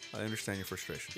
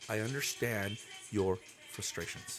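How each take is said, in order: First: It is said at a normal pace. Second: It is said slowly and deliberately.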